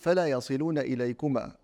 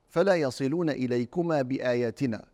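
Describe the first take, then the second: First: The pause comes before the word 'bi-ayatina'. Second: The pause comes after the word 'bi-ayatina'. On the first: The signs are what bring them to victory. "ونقف عليها" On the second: The signs are what keep the enemies from reaching them. "فالأول"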